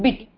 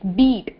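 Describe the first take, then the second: First: The vowel is cut short. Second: The vowel is held long. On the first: The speaker calls it wrong. "Not beat" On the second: The speaker calls it right. "It's beat. E. The elongation of E is there still"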